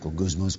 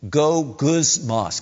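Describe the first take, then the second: First: It is muttered very quietly under the breath. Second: It is said at a normal speaking volume.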